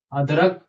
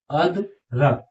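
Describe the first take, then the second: First: अदरक repeated with a rising lift; pronunciation demo. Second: अदरक read out with a falling close; first take, अदरक drops at the end; pronunciation demo. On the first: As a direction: echo अदरक, tune going up. (अदरक दोबारा, उठते सुर में) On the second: (अदरक को गिरते सुर में साफ़ पढ़ें) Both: Shown as a demonstration. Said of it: "तो देखिए कैसे पढ़ेंगे".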